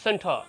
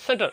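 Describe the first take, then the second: First: সেন্টার with a long open final vowel, no r; drawn-out ending. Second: সেন্টার cut short with an r at the end; quick সেন্টার, final syllable not stretched; short wrong ending. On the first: Teacher corrects the short form, drawn-out সেন্টার. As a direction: stretch the end of সেন্টার, dropping the r. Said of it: "এখানে আমরা একটু টান দেবো". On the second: Teacher shows what he doesn't say, short r-ending সেন্টার. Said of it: "এমন বলি না কিন্তু". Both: Shown as a demonstration.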